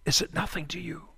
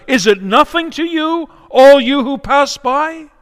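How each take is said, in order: First: Soft, dropped repeat of the cry; hushed echo. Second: High, loud anguished outcry; crying out. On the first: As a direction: let the question fall away into a near hush. Widow's hushed repeated question. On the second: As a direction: hurl it at the passers-by at the top of your lungs. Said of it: "at the top of her lungs, she cries out". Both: Acted.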